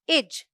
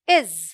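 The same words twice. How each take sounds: First: The word ends with a 'j' sound. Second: The word ends with a 'z' sound. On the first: The speaker calls it wrong. "It's not इज" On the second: The speaker calls it right. "It's इज"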